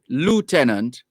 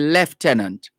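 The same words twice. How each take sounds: First: It is said the American way. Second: It is said the Jamaican way. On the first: The speaker calls it wrong. "in Jamaica, we don't say lieutenant" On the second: The speaker calls it right. "we say lieutenant"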